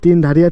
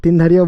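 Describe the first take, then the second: Both takes have the same delivery.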